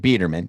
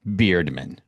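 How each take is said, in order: First: The name is said as Biederman. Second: The name is said as Beardman. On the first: The speaker calls it right. "Biederman is the right way to say it" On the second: The speaker calls it wrong. "To me, it's Beardman"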